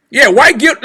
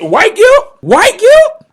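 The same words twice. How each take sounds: First: Said in the usual way. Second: Incredulous. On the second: Real, not acted. Incredulous repeat of the phrase.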